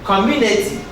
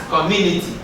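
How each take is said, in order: Both takes have the same delivery.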